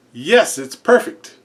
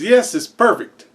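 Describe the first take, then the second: First: Slow, odd voice for a talking bird; the ostrich copying the guy, slow and deadpan. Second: Said in the usual way. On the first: Acted.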